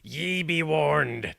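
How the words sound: It is said in an exaggerated pirate accent. The speaker calls it right.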